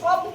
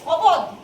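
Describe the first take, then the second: First: The b and d sounds are joined together. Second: The b and d sounds are said separately. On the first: The speaker calls it right. "আমরা শব্দ এটা শুনেছি" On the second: The speaker calls it wrong. "পুরো এরকম সোজাসুজি উচ্চারণ করি"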